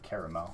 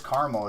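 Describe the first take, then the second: First: The word is said with three syllables. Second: The word is said with two syllables. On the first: The speaker calls it right. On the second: The speaker calls it wrong.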